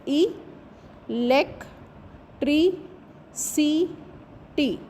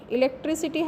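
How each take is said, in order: First: ई, लेक, tree, सी, टी as five separate beats, long pauses between; syllable by syllable. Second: Said in the usual way. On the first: Shown as a demonstration. Teacher counting five syllables of electricity, syllable by syllable. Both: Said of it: "electricity has five syllables".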